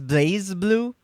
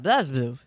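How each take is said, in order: First: The first syllable has a long 'ay' vowel. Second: The first syllable has a short vowel, no 'ay'. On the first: "do you mean pronouncing as Blaze Blue?" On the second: "I've just gotten very used to calling it BlazBlue"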